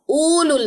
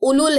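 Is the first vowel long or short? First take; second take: long; short. First: The first vowel is drawn out as long oo. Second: The first vowel is short, with no long oo. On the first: The speaker calls it wrong. "उलुल नहीं है" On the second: The speaker calls it right. "ये उलुल है"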